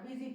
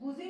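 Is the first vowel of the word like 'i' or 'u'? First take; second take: i; u. First: The first vowel sounds like 'i'. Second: The first vowel sounds like 'u'. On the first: The speaker calls it right. "बिजी पढ़ना" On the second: The speaker calls it wrong. "इसको बुजी नहीं पढ़ना"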